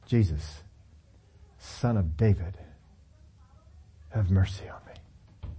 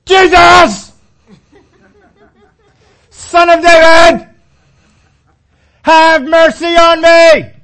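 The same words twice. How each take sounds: First: Soft, low, trailing to a whisper. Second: High, loud, slow drawn-out cry; full shout. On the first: Shown as a demonstration. Preacher contrasting a shout by murmuring the plea, whispered. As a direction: hush the cry down to a breath. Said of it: "shouting at the top of his lungs". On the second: Retold or imitated. Blind Bartimaeus shouting to reach Jesus, full-throated yell. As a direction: bellow it across thousands of people. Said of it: "he is shouting as loud as he can".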